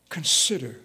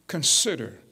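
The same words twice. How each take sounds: The two takes are said the same way.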